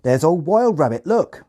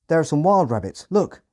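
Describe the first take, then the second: First: High, loud Hampshire farmer shout; loud rural Hampshire accent. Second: Said in the usual way. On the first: Retold or imitated. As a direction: call out like an excited Hampshire farmhand. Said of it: "in a thick Hampshire accent". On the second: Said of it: "translate ... into British Standard English".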